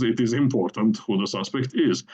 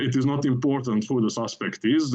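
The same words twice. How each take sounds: First: The last "is" stressed and falling; stress on final is. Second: "suspect" pressed harder than the other words; stress on suspect. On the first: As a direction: land hard on the closing "is". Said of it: "the emphasis is on, on the last is". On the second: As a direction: lean on "suspect" and keep the final "is" light. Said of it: "the emphasis is on suspect". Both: Shown as a demonstration.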